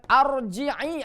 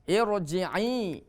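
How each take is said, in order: First: The word begins with an a vowel. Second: The word begins with an i vowel. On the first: The speaker calls it wrong. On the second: The speaker calls it right. "dengan kasroh"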